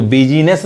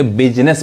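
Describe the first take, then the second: First: बिजीनेस in three syllables; wrong pronunciation. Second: बिजनेस with silent I; correct pronunciation. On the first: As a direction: sound the I in the middle of बिजीनेस. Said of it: "इसको बिजीनेस नहीं कहेंगे". (बिजीनेस, बीच का आई बोलकर) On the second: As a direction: say बिजनेस in two syllables, no middle vowel. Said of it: "बिजनेस पढ़ेंगे". (बिजनेस, आई को खामोश रखकर) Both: Shown as a demonstration.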